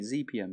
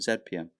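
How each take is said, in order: First: The letter Z is said as 'zee'. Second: The letter Z is said as 'zed'. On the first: This is the way other listeners want it said. "say Z P M" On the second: This is how the letter is said in the UK. "instead of Z P M"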